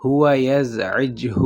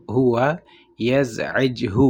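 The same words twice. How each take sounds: First: Slow and careful, falling at the end; slow demo. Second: Each word apart with a pause, very slow. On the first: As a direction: say it slowly for learners. (آہستہ عربی مثال) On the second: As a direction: break it into separate words. (الگ الگ لفظ، بہت آہستہ) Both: Shown as a demonstration. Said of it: "اور اگر آپ کہنا چاہتے ہیں".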